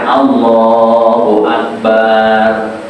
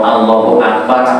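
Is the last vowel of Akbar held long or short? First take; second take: long; short. First: The last vowel of Akbar is drawn out long. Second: The last vowel of Akbar is kept short. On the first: It names a large one-skinned drum. The speaker calls it wrong. "tidak boleh dibaca panjang, tidak boleh" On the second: God is the greatest. The speaker calls it right. "Allah Maha Besar"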